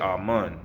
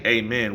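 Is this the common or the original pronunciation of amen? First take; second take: original; common. First: The word is said the original way. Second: The word is said the common way. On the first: This is the older, original form of the word. The speaker calls it right. "we say amen, the original" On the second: This is the form the speaker rejects. The speaker calls it wrong. "we don't say amen"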